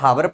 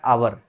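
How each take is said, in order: First: The word begins with an h sound. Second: The word begins with a vowel sound. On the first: The speaker calls it wrong. "कुछ लोग इसको हावर पढ़ते हैं" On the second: The speaker calls it right. "पर actually इसका pronunciation क्या होता है? आवर।"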